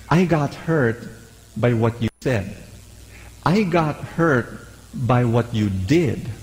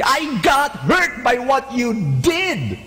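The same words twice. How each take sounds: First: Slow, even and calm; calm statement. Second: Higher, slow, accusing tone; angry way. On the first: Calm words to a difficult person. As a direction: say it calmly without blame. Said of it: "but you say it in a calm way". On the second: Angry words to a difficult person. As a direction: let the hurt come out as an attack. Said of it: "if you say it in an angry way". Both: Shown as a demonstration.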